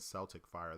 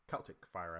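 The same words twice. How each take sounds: First: Celtic is said like the basketball team's name. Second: Celtic is said the Irish way. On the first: The speaker calls it wrong. "I kept on saying Celtic Fire ... it's not like the N B A team" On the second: The speaker calls it right. "you say it like Irish ... is the way that I'm supposed to pronounce it"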